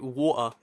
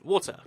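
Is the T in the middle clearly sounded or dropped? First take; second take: dropped; clear. First: The middle T is dropped, not clearly sounded. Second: The middle T is clearly and fully sounded.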